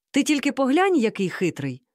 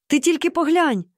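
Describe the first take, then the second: First: Admiring, high at first, then settling; delighted exclamation. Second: High, louder cry of amazement; exclaiming. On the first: Mom admires the old trickster, exclaiming delightedly. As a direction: marvel at it with a lifted voice. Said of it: "захоплено вигукнула мама". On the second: Mom sees him take an umbrella, exclaiming. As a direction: exclaim it in astonishment, pitched well up. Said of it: "вигукнула мама". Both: A narrator's reading.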